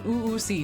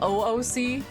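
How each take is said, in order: First: It is blended into one word-like sound. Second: Each letter is named separately. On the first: "I used to pronounce it" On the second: "Instead of"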